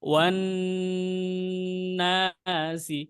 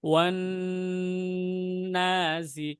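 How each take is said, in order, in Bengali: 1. ন ছাড়ার আগে অনেকক্ষণ ধরে রাখা হয়। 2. ন ছাড়ার আগে অনেকক্ষণ ধরে রাখা হয়।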